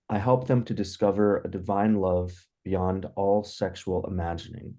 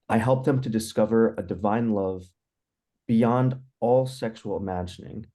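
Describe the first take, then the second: First: The voice is quieter and held back. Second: The voice is louder and projected outward.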